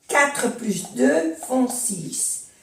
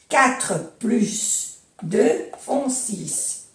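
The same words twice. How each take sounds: First: Slow, with "plus" said "plys"; sounded S in plus. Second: "plus" as "plys", said very slowly; sounded S, very slow. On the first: Teacher reading "quatre plus deux" slowly, S sounded. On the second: Teacher repeating the sum very slowly, S sounded. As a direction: spell it out slowly with the S heard. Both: Shown as a demonstration. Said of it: "Aquí se pronuncia la S".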